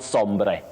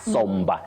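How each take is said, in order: First: The last syllable has a full vowel. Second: The last syllable has a weak uh vowel. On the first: The speaker calls it wrong. "not sombre" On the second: The speaker calls it right. "you say somber with what we call a sure, the weak sound uh"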